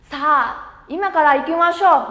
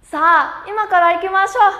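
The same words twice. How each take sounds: First: Said in the usual way. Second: Much higher and louder, an eager call to go; rally everyone to go right now; strong invitation. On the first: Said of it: "Bắt đầu". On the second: Shown as a demonstration. Teacher models a strong invitation to students, much higher and louder. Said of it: "Mời rủ mạnh mẽ nào".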